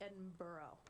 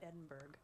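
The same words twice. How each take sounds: First: The name ends with a soft 'burra' sound. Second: The name ends with a hard 'burg' sound. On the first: The speaker calls it right. "it's pronounced Edinburgh" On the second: The speaker calls it wrong. "not Edinburgh"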